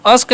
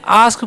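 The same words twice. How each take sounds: First: अस्क with a short uh vowel, like "usk"; mispronounced short A. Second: आस्क with a long open "aa", like "aask". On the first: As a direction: say अस्क wrongly, A cut to अ. (अस्क में गलत, छोटा "अ") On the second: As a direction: say आस्क with the A drawn as आ. (आस्क में लंबा "आ") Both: Shown as a demonstration. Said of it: "अस्क नहीं पढ़ना है".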